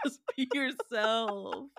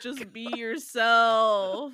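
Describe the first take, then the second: First: Slow, stretched repeat at ordinary volume; drawn-out plea. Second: Loud, slow, drawn-out plea; exasperated shout. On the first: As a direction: let the words drag out without shouting. Repeats the plea more quietly. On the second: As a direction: stretch it out loudly in exasperation. Exasperated outburst at co-host. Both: Real, not acted.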